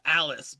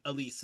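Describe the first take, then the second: First: The name is said like 'Alice'. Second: The name is said like 'Elise'. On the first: This is how the speaker expected it to be said. "I thought it was gonna be like uh Alice" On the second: This is how it is said in the film. "I think they say Elise in the film"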